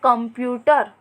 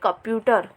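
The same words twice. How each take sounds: First: The first syllable has a nasal sound. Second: The first syllable has no nasal sound. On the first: "आधे म का उच्चारण कर रहे हैं" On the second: "शब्द दिया हुआ है"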